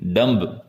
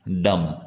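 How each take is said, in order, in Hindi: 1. b की ध्वनि बोली जाती है। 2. b की ध्वनि साइलेंट है। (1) "इसे भी डम्ब ना बोलें" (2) "बी इसमें साइलेंट है"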